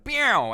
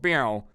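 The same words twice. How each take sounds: First: High, sassy "Meow" with a falling end, louder; mock diva meow; sassy cartoon meow. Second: Mild "Meow" with a falling end, in the usual pitch; a hint of a sassy meow; understated sassy meow. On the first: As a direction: purr out a snooty cat sound like a cartoon intro. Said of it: "like someone doing a intro in a cartoon". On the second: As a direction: toss off a small repeat of the cat sound.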